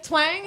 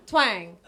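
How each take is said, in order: First: "Twang?" with a rising, checking tone; questioning TWANG. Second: "Twang." dropped much lower with a falling tone. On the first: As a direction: lift "Twang?" up as if asking whether it's right. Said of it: "Did I say that right?". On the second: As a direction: land "Twang." low and final. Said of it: "Is that right?". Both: Shown as a demonstration.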